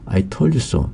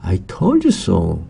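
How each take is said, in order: First: It is said in a plain, neutral tone. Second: It is said with reproachful, emphatic intonation.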